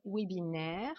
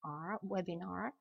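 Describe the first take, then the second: First: "webinaire" with a French -aire ending; French pronunciation. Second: "webinar" with a long open -ar; English -ar ending. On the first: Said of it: "chez nous, on va dire webinaire". (« webinaire » à la française, finale en -aire) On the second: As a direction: sound out R, then "webinar" ending in -ar. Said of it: "Là, la terminaison en R". (« webinar » avec une finale anglaise en -ar) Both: Shown as a demonstration.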